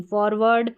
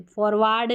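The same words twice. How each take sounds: First: फॉरवर्ड with a short neutral "ar", as फॉरवड; correct pronunciation. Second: फॉरवर्ड said with a long open "aa", as पोरवार्ड; फॉरवर्ड with the wrong long vowel, forwaard; wrong pronunciation. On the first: Teacher giving students the right reading, short vowel. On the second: Teacher demonstrating to students the wrong reading, long aa. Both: Shown as a demonstration. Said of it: "फॉरवर्ड नहीं".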